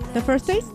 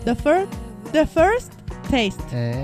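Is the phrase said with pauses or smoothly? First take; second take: smoothly; with pauses. First: The words are said smoothly without any pauses. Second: The words are said with pauses between them.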